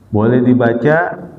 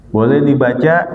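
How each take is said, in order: The two takes are said the same way.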